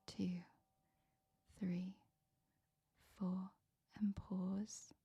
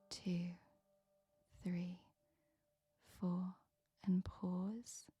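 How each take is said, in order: Both takes have the same delivery.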